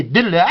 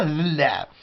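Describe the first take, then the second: First: Dilla with a clean hard d at the start. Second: Dilla said with a soft th-like ð at the start; wrong soft d. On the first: Teacher giving the right Kabyle word for watermelon, hard d. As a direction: hit the d of dilla crisply. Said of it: "C'est dilla". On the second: Teacher showing the wrong way to say watermelon, soft ð. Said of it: "on ne dit pas dilla". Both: Shown as a demonstration.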